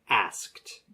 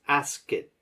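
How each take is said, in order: First: The word is said with one syllable. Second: The word is said with two syllables. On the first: The speaker calls it right. "It should be one" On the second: The speaker calls it wrong. "You're making this two syllables"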